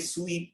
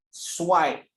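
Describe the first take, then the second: First: The vowel is a long ee sound. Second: The vowel is an eye-like glide. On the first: The speaker calls it wrong. "bukan cara sebut dia sweep ke" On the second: The speaker calls it right. "Cara sebut dia swipe"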